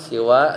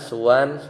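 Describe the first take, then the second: First: The first vowel after s is i. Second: The first vowel after s is u. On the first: "dibaca siwa dengan kasroh sinnya" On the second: "yaitu dengan didomahkan seperti hudan"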